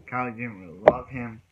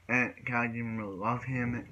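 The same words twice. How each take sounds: First: "Callie didn't really love him" said louder, "Callie" leaned on; louder second try, landing "Callie didn't really love him"; emphatic restatement. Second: Said in the usual way. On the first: Shown as a demonstration. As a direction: press the point home on "Callie".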